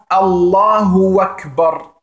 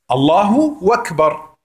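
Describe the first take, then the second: First: The u of Allahu is stretched, sounding like wa. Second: The u of Allahu is short, flowing into Akbar. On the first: It sounds like 'God and Kbar'. The speaker calls it wrong. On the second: It means God is the greatest. The speaker calls it right.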